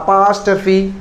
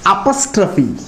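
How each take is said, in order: First: The second syllable has a long 'aa' vowel. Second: The second syllable has a short, reduced vowel. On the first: The speaker calls it wrong. "இதனுடைய உச்சரிப்பு அப்பாஸ்டர்ஃபி, அம்மாஸ்டர்ஃபி, தாத்தாஸ்டர்ஃபிலாம் கிடையாது" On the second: The speaker calls it right. "இதனுடைய உச்சரிப்பு அப்பஸ்ட்ரஃபி"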